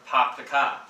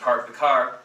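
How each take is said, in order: First: It is said in a Boston accent. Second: It is said in a standard American accent.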